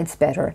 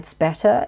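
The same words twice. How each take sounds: First: It has a soft D sound in better. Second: It has a clear T sound in better. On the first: "un Américain dira it's better ... les deux T deviennent D" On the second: "un Britannique dira it's better"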